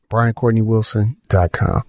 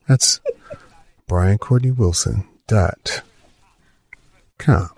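First: It is said in his normal voice. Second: It is said in a put-on NPR voice.

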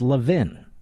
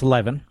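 First: The name sounds like 'love in'. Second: The name does not sound like 'love in'. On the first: This is how it is said in Philadelphia. "But in Philadelphia, that's where I'm from, it's Levin" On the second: This is how most of the country says it. "in much of the country, it's Levin"

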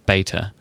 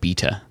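First: It is said with an American pronunciation. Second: It is said with a British pronunciation. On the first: This is how the speaker now says it. "I pronounce things in a certain way" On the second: This is how the speaker used to say it. "instead of"

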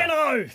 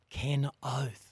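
First: The phrase is said with more force and energy. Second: The phrase is said with ordinary, lower energy.

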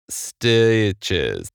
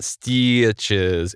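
First: The vowel is changed only slightly and subtly. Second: The vowel is changed strongly and obviously. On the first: "It's a little more subtle. It's like stitches" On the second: "It's not stitches"

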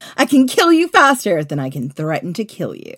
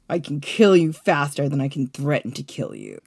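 First: It is said in a plain, neutral tone. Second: It is said in a cold, heartless tone.

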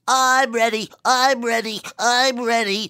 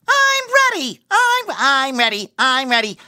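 First: It is SpongeBob's voice stuffed up with a cold. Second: It is SpongeBob's normal, clear voice.

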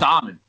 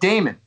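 First: The name sounds like 'Diamond', with an 'eye' sound. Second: The name sounds like 'Damon', with no 'eye' sound. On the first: The speaker calls it wrong. "You said Diamond" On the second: The speaker calls it right. "I said Damon"

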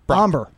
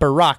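First: The name is said with one syllable. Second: The name is said with two syllables. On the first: The speaker calls it right. "it's Barack" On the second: The speaker calls it wrong. "You're adding an extra syllable"

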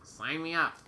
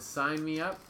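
First: It is said in a put-on nerdy voice. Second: It is said in the speaker's normal voice.

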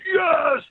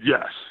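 First: It is screamed as loud as possible. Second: It is said weakly and half-heartedly.

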